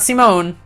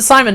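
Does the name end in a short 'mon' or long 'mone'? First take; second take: long mone; short mon. First: The name ends with a long 'mone' sound. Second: The name ends with a short 'mon' sound. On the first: The speaker calls it wrong. "not Simone" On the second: The speaker calls it right. "I'm gonna pronounce it Simon"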